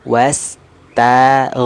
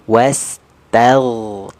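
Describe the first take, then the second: The two takes are said the same way.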